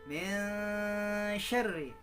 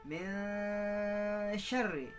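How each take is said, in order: No difference in how they are said.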